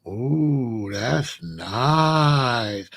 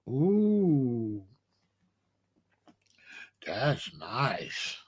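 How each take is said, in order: First: Low, drawn-out admiring ooh; mama won over by the suit; impressed mother. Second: Much lower and softer admiring ooh; a near-whispered awe at the velvet; hushed impressed mother. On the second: Mother admiring, retold again. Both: Retold or imitated.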